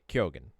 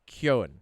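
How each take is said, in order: First: The G is said as a hard G sound. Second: The G is silent; it sounds like 'Kohn'. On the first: This is how Americans tend to say it. "because we we make those hard G's, you can say" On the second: This is the traditional Irish pronunciation. "So it's K O N"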